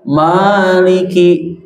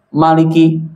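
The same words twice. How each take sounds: First: The vowel after the m is long. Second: The vowel after the m is short. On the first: The speaker calls it right. "dibaca panjang" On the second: The speaker calls it wrong. "tidak dibaca maliki"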